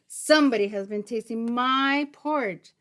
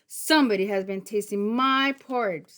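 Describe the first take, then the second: First: It is said in a medium, middle voice. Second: It is said in a big, deep voice.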